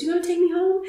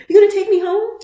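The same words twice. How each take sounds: First: High hopeful echo. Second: High louder echo. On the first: Retold her reply, high. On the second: Retold his echo, higher, louder. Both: Retold or imitated.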